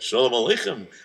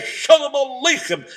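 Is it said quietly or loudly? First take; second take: quietly; loudly. First: It is said quietly. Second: It is said loudly.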